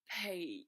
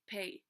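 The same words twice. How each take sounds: First: It is said in a drawn-out Australian accent. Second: It is said in a plain American accent. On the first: "it's Australian. They say like pay" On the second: "in American you would just say pay"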